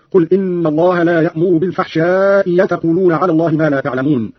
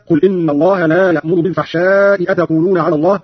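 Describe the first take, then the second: First: أتقولون begun with y, yataquluna; hamza as ya. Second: Said in the usual way. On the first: Shown as a demonstration. Teacher showing Qalun's reading, أتقولون as yataquluna. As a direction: glide from بالفحشاء into أتقولون with a y, fahsha'i-yataquluna. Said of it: "بإبدال الهمزة الثانية ياء هكذا". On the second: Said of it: "قرأ قالون بإبدال الهمزة الثانية ياء".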